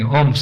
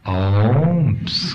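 First: The word is said plainly, without extra initial emphasis. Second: The beginning of the word is strongly emphasized. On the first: "Instead of saying Омск" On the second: "they can say little more accent in the front. You put Омск"

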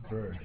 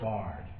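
First: The word has the usual 'ur' vowel. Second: The word has an 'ar' vowel. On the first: "referring to bird" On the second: "pronounced like that"

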